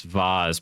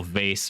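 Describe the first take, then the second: First: Second vase said as VAHZ; fancy pronunciation. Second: First vase said as VAYSS; standard pronunciation. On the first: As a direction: say vase with a broad "ah" and a z. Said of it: "vase vase pronunciation". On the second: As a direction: say vase to rhyme with face. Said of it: "on the whole vase vase pronunciation". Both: Shown as a demonstration.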